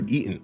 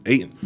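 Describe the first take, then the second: First: Said in the usual way. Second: Eaten as "ay-ten"; jokey mispronunciation. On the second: Shown as a demonstration. Correcting himself about his first sandwich, Eaten as "ay-ten". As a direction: repeat Eaten as "ay-ten", a joking slip.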